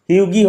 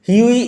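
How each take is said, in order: First: A hard g sound is heard mid-word. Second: No g sound is heard mid-word. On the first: The speaker calls it wrong. "হিউগি হবে না" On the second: The speaker calls it right. "জিএইচ silent থাকবে"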